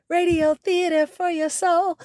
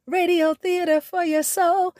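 Both takes have the same delivery.

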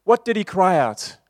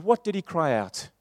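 First: The question thrown out loud; louder repeat. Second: Said in the usual way. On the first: Shown as a demonstration. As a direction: demand the answer from the room. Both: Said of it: "repeated louder".

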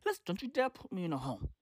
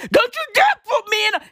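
First: Quick, hushed, low warning; quiet mock menace to the kids; restrained warning. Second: Fast, high mock outburst; sudden indignant flare-up; heated warning. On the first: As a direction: rein it in to a soft, serious threat. Same warning, reined in. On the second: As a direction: fire it off high and rushed at the kids. Mock warning to future kids, flaring up.

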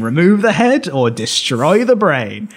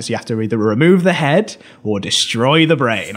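First: Slowed down, every word spelled out; slow emphatic repeat. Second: Said in the usual way. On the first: Shown as a demonstration. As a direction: say it again slowly so it sinks in. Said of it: "I'll say that again". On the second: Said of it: "Jeffrey Thomas is like".

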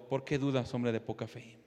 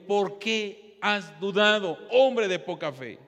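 First: Low, soft question to a neighbour; quiet aside. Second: Slow, weighted question quoting Jesus; retold reproof. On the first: Acted. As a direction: drop right down and pass the reproach along. Same question passed to neighbour.

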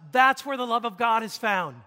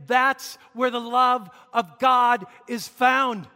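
First: Said in the usual way. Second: THAT'S, LOVE, GOD and FOUND each punched slowly and loudly; emphatic repeat. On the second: Real, not acted. Preacher repeats key point to congregation, slow emphatic shout on "love of God". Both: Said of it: "Let me emphasize that again".

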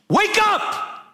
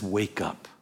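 First: High, explosive wake-up yell; sudden shout. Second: Low, soft, understated command; quiet statement. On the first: Preacher jolting the congregation awake, sudden shout. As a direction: burst out with it to jolt the listeners. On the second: Preacher quoting the first instruction to the church, quiet statement. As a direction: say it softly and low, holding back. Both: Acted.

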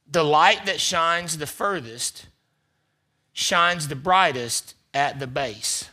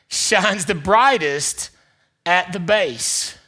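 First: Slow, weighty reading of the quote. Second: Slow and louder, each word weighted; slow emphatic retake. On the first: Pastor reads a quote slowly to the church. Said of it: "I wanna tell you this quote". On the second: Pastor rereads the quote's end with slow weight. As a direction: land it slowly. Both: Shown as a demonstration.

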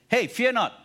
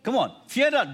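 First: High, loud call to a neighbour; loud encouragement. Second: High, loud rallying call; loud urging. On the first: Preacher models telling a neighbour, loud call. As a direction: say it boldly to the person next to you. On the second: Preacher urges the congregation to repeat, loud. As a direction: urge the whole room to say it. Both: Shown as a demonstration. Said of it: "look at someone and tell the person this".

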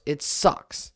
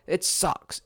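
First: Breathed out in a whisper; a whispered "It sucks" after a plain one. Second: Said in the usual way. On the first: Real, not acted. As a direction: drop it to a resigned whisper. Repeated complaint, second whispered.

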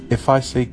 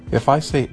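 The two takes are said the same way.

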